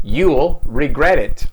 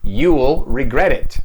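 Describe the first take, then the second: First: Will is shortened and joined to the pronoun. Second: Will is shortened and joined to the pronoun.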